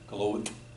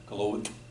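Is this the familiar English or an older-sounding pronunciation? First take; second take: older-sounding; older-sounding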